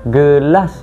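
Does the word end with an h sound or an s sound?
s sound. The word ends with a clear s sound. This is the standard pronunciation. "Perkataan belakang dia AS"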